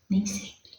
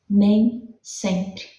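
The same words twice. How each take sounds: First: Nem sempre breathed as a soft whisper. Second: Said in the usual way. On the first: Acted. Preacher whispering Nem sempre to the class for emphasis. Repeats phrase, then whispers it.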